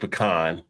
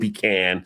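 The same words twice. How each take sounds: First: It is said the New Jersey way. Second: It is said the Kentucky way. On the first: "I grew up in New Jersey where it was pecan" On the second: "got out of Kentucky and became pecan"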